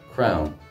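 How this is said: The vowel sounds like 'ow', the Munster way. "I'm from Munster, so I pronounce it as we do in Munster"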